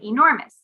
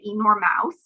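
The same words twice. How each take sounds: First: The ending sounds like a short 'muss'. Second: The ending sounds like the word mouse. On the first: The speaker calls it right. "we say enormous" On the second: The speaker calls it wrong. "We don't say enormous"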